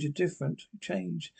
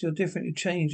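First: Much softer, almost to herself; quiet repeat. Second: Said in the usual way. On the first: Acted. To the man who has changed, said much softer. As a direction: let the accusation sink to a hush.

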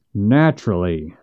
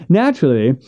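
First: Low, dry repeat of Naturally with a falling end; dry echo. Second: Said in the usual way. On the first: Acted. Missus Finch echoes Hank with Naturally, low and dry. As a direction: echo his Naturally back, dry and contained. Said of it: "said Missus Finch".

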